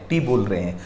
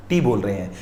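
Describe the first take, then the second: No difference in how they are said.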